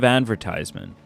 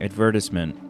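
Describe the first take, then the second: First: It is pronounced the non-British way. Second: It is pronounced the British way. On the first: "instead of advertisement" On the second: "start saying advertisement"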